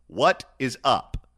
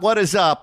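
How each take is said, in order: First: It is said as a serious, literal question. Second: It is said as a casual, friendly greeting.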